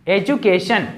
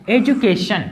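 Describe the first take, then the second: No difference in how they are said.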